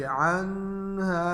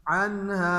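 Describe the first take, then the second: First: "अनहा" with the n stretched into a nasal hum; wrong ghunna. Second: "अनहा" with a clear n and drawn-out final vowel; izhar recitation. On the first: Teacher shows students the mistake, nasal held n in "अनहा". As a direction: hum through the n before the "हा" of "अनहा". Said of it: "ये नहीं पढ़ेंगे". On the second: Teacher gives students an example with ha, clear n in "अनहा". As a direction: sound the n of "अनहा" cleanly, no hum. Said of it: "जाहिर करके पढ़ेंगे". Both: Shown as a demonstration.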